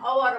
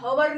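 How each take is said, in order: First: The word begins with a vowel sound. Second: The word begins with an h sound. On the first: The speaker calls it right. "અવર વંચાય" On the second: The speaker calls it wrong. "આને હવર ન વંચાય"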